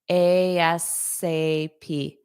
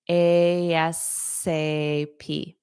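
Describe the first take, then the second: Both takes have the same delivery.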